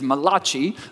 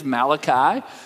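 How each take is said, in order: First: The name is pronounced in an Italian-sounding way. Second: The name is pronounced in an English-sounding way. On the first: The speaker calls it wrong. "mispronounced his name as Malachi, like some Italian prophet" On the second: The speaker calls it right. "his actual name is Malachi"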